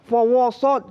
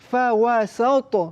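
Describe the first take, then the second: First: The w and s sounds are heavy and thick. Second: The w and s sounds are light and thin. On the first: The speaker calls it wrong. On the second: The speaker calls it right.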